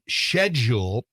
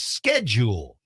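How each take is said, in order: First: The word is said with a British pronunciation. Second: The word is said with an American pronunciation. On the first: "The modern British pronunciation" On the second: "the U S pronunciation is"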